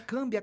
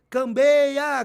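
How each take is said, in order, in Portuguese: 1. A palavra não tem o som 'ei': cam-bia. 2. A palavra tem o som 'ei': cam-bei-a. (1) "não é cambeia, não, é câmbia" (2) "eu levanto o braço e, e começo a gritar"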